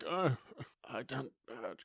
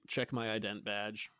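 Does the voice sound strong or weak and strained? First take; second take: weak; strong. First: It is said weakly, like someone wounded. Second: It is said in a plain, strong voice.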